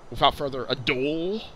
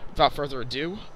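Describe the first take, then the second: First: It is said in a Louisville accent. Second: It is said in a plain accent.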